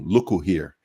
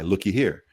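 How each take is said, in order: First: An oo vowel is added after look. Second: An ee vowel is added after look. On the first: "In Jamaica, we added a U" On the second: "Up here, they added a Y"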